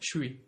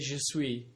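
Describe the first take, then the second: First: The j sound merges into an sh sound. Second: The j sound of je is clearly heard. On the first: "it becomes a S H and then suis" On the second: "generally they wouldn't say je suis"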